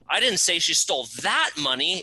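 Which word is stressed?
that. The word "that" is stressed. Different money was stolen. "It wasn't that money, it was a different bucket of money she stole"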